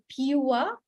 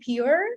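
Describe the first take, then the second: First: The vowel glides as a diphthong. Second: The vowel is a plain single vowel. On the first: The speaker calls it right. "but they say pure" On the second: The speaker calls it wrong. "They they don't say pure"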